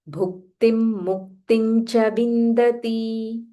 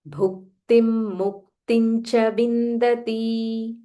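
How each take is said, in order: No difference in how they are said.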